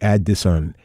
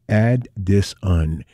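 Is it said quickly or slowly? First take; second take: quickly; slowly. First: It is said quickly, run together. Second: It is said slowly, word by word.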